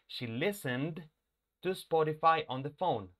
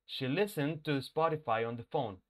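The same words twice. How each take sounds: First: The final D of listened is said clearly and louder. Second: Said fast, the D blends into the next word. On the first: "La estoy recalcando" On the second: "Cuando yo lo pronuncio rápido, no se oye"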